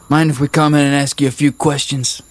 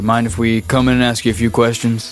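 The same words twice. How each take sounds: First: It is spoken in a rural redneck accent. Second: It is spoken in a hardboiled noir detective style. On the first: The speaker calls it wrong. "You've gone back to a redneck accent" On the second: The speaker calls it right. "I have to go real, L.A. Noir style here"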